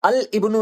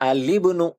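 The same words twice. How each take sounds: First: A glottal stop is heard before ibnu. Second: The l links straight into 'ibnu' with an i. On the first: The speaker calls it wrong. "अल-इब्नु नहीं पढ़ेंगे" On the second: The speaker calls it right. "लाम के नीचे कसरा लगाकर पढ़ेंगे"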